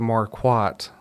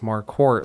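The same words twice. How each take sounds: First: The second syllable is said without an R. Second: The second syllable rhymes with quart, R included. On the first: The speaker calls it wrong. "they would say Marquardt" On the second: The speaker calls it right. "like a quart of milk"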